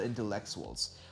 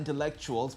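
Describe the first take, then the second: First: The middle syllable is stressed to sound like Lex. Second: The middle syllable is said the ordinary way. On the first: It is a pun on a wrestler's name. The speaker calls it right. "but intellectuals" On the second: It is the ordinary word. The speaker calls it wrong. "Not intellectuals"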